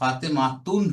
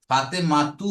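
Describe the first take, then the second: First: The word ends with an added n sound. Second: The word ends on a plain vowel. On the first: The speaker calls it wrong. "হবে না" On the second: The speaker calls it right. "হবে"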